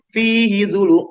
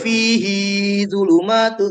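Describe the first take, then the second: First: The vowel in 'hi' is kept short. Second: The vowel in 'hi' is drawn out long. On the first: The speaker calls it right. "Hi-nya nggak boleh panjang" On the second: The speaker calls it wrong. "Nggak boleh"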